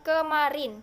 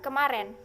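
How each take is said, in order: First: The last syllable has an 'i' vowel. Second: The last syllable has an 'e' vowel. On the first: This is the standard form. The speaker calls it right. "diucapkan kemarin" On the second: This is the colloquial form. The speaker calls it wrong. "bukan kemaren"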